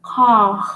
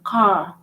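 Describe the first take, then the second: First: "Car" with a guttural French R at the end; emphasize the final R of "Car" in the throat. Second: Said in the usual way. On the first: Shown as a demonstration. Teacher showing R emphasized more than English speaker, "Car" with guttural R. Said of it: "to emphasize on the R more". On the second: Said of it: "let's say car".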